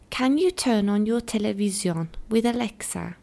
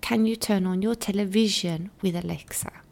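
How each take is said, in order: First: The word 'television' is said with a Turkish pronunciation. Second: The word 'television' is said with an English pronunciation. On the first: The speaker calls it wrong. "For example" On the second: The speaker calls it right. "The right way of saying this sentence is"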